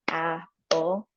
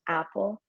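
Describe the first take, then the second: First: The syllables are separated by a short pause. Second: The syllables run together without a pause. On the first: "clap between words. So, like, if you were gonna say apple, it'd be like apple" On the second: "rather than, like, just apple"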